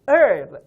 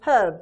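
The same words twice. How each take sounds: First: The word starts without an h sound. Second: The word starts with a clear h sound. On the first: "미국식 발음은 herb, h를 거의 발음하지 않습니다" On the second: "영국인들은 herb 이렇게 R 사운드를 안 하고 h를 조음하거든요"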